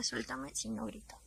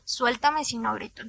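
First: "Suéltame si no grito" said much softer, almost breathed; hushed threat. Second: Said in the usual way. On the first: Retold or imitated. Held in a chokehold, warning him under her breath. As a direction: keep it down so the family downstairs won't hear. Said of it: "Su mamá y su hermana estaban abajo". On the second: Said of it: "y le dije".

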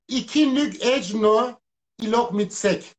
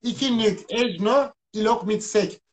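First: Backwards speech. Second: Reversed phrase, said slowly; backwards speech. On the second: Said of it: "ikinin tersi ikidir". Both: Shown as a demonstration.

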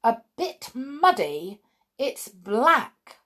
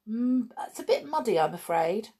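First: Slow, raised, incredulous echo; stern mother's disbelieving retort; grimly indignant. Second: Put-on higher-pitched, hesitant child's admission; sheepish. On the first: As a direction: throw the words back in disapproval. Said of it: "Her mother looked at it grimly". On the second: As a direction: play it down apologetically. Child sheepishly admits the mud. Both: A narrator's reading.

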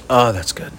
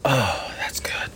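First: Said in the usual way. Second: Breathy whisper after a long drink; whispered relief. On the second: Real, not acted. After a gulp from his jug, a whispered sigh of relief. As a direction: sigh it out, refreshed.

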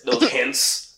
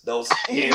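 First: Said in the usual way. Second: "Those hints" in a high teasing lilt; high sing-song. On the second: Shown as a demonstration. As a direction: lift "hints" up high and playful. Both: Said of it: "Look at me. I'm sliding in those".

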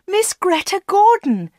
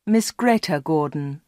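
First: High-pitched shout up the stairs; excited shout. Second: Said in the usual way. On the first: A narrator's reading. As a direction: shout the star's name, pitch way up. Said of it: "shouted Anna".

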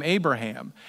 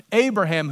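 First: Said in the usual way. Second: Abraham repeated higher and louder, falling hard; Abraham said up high and loud with a firm fall; emphatic repeat. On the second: Shown as a demonstration. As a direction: hammer the name Abraham the second time.

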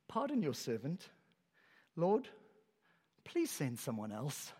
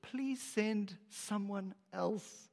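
First: Timid plea. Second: Slow, soft, pleading whisper of a request; plead, almost giving up; meek plea. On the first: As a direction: beg quietly to be let off. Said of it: "here's what he says". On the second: Moses meekly begging God, slow and soft. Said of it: "He has nothing left except". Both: Acted.

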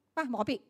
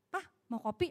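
First: Brief, offhand question; offhand offer. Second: Soft, rising question; gentle offer. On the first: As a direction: say it quickly without tenderness. (bertanya singkat seadanya) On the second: (bertanya dengan lembut) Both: Shown as a demonstration. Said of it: "Intonasi beda".

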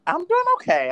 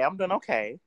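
First: High sassy greeting. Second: Said in the usual way. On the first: Real, not acted.

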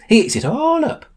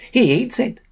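First: Put-on high old man leaning on "all"; high old man, "all" punched; old man emphatic. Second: Put-on high old man lifting on "He"; high old man, "He" rising; old man emphatic. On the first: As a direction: stress "all" in "He eats it all up.". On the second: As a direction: lift "He" high in "He eats it.". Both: Old man repeats himself.

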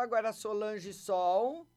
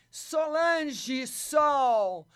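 First: Said in the usual way. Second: Very slow, loud, drawn-out name; calling out. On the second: Real, not acted. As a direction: sing the name out slowly to summon her. Calling the caller into the live.

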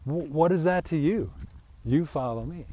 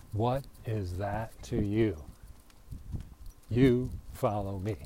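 First: A touch of a stern Jesus, a bit louder; lightly voiced Jesus rebuke; Jesus rebuking Peter. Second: Slowed, weighted rereading of the line; measured, deliberate restatement; slow deliberate reading. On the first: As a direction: snap the question back at Peter. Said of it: "Jesus looked at Peter and goes". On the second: Shown as a demonstration. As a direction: let each word land slowly. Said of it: "Witty Whitty".

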